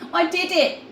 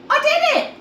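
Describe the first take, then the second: First: It is said calmly, with little energy. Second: It is said excitedly, with more energy.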